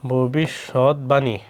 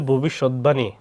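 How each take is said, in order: First: ভবিষ্যৎবাণী stretched out slowly, each syllable bo-bi-shot-ba-ni clear; slow pronunciation demo. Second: Said in the usual way. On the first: Shown as a demonstration. Teacher to students modelling ভবিষ্যৎবাণী, slow syllable by syllable. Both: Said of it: "ভবিষ্যৎবাণী উচ্চারণ হবে ভবিষ্যৎবাণী".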